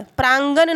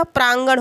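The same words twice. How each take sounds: First: प्रांगण ending on plain n, praangan; wrong form. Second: प्रांगण ending on curled-tongue n; correct form. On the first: Teacher showing students the faulty word, wrong form. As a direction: finish प्रांगण with a dental n. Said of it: "प्रांगण नहीं होता". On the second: Teacher giving students the right word, correct form. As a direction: curl the tongue on the last n of प्रांगण. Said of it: "प्रांगण होता है". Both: Shown as a demonstration.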